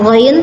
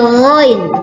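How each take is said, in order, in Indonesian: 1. Huruf itu diucapkan ringan dan tipis. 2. Huruf itu diucapkan berat dan tebal. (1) "Bukan ghain" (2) "tapi ghain"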